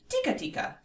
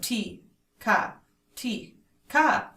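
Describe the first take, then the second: First: The syllables are said quickly, run together. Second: Each syllable is said slowly and separately. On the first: The speaker calls it right. "You have to say it quickly. Say all the names together in one beat" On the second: The speaker calls it wrong. "you can't call them"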